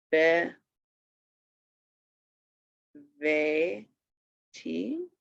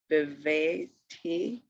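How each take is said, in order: First: "Be", "Ve", "Ti" with long gaps; separate syllables. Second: "Beveti" as one slow word; syllables joined. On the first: Teacher showing each syllable alone, "Be", "Ve", "Ti" spaced out. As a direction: sound out "Be", "Ve", "Ti" one at a time. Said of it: "it is a syllable itself". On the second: Teacher putting the syllables together, "Beveti" slowly. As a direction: join "Beveti" up, still slow and measured. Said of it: "That's the last one". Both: Shown as a demonstration.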